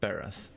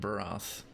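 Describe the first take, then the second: First: The first vowel is short, as in 'bed'. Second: The first vowel is open, as in 'bar'. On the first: The speaker calls it right. "it's Bereth" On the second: The speaker calls it wrong. "I've been pronouncing it Barath"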